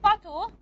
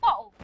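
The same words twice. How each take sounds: First: The middle consonant is a clear t sound. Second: The middle consonant is a glottal stop. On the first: "they don't say bottle" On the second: "They use a glottal stop"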